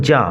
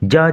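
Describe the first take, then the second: First: The name is said as 'zhah'. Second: The name is said as 'zhah'.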